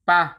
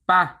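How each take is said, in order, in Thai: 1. พูดสั้นเหลือพยางค์เดียว คือ ปะ 2. พูดสั้นเหลือพยางค์เดียว คือ ปะ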